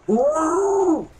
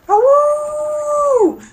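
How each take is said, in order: First: The howl is weak and feeble. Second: The howl is strong and full.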